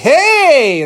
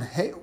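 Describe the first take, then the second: First: It is said at a high pitch. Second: It is said at a low pitch.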